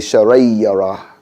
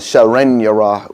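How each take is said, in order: First: The n sound merges into the following ya. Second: The n sound is clearly pronounced before ya. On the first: The speaker calls it right. "we say" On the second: The speaker calls it wrong. "We don't say"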